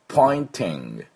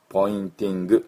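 First: The ending is a soft, swallowed nasal sound. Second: The ending is a full, separate 'gu' syllable. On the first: The speaker calls it right. "グってなんか飲み込むような感じで" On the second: The speaker calls it wrong. "ポインティングではありません"

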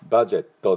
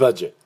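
First: The word ends with an added final vowel. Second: The word ends on a bare t sound. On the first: The speaker calls it wrong. "バジェットではなくて" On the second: The speaker calls it right. "これが、英語のバジェットの音です。"

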